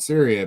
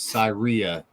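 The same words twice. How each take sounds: First: It sounds like the country name Syria. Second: It sounds different from the country name. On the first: The speaker calls it wrong. "Don't fucking call it Syria because they will rip your ass" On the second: The speaker calls it right. "It is Syria"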